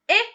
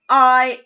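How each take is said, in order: First: The vowel is short, as in pin. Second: The vowel is long, as in find. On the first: "I as in pin" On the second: "I as in find"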